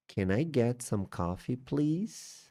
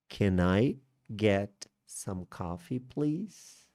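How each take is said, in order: First: Said in the usual way. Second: "Can I... get... some coffee, please?" spaced out, rising on "please"; slow polite request with lifted "please"; slow teaching repeat. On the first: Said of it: "Como que eu posso me expressar de forma educada?". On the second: Shown as a demonstration. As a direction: model it slowly, chunk by chunk. Teacher repeats model phrase slowly.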